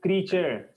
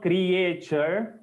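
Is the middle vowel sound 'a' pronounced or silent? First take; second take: silent; pronounced. First: The middle vowel is silent, two syllables. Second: An extra vowel is sounded in the middle. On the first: The speaker calls it right. "It is creature. Simple. A silent है" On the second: The speaker calls it wrong. "It is not creature"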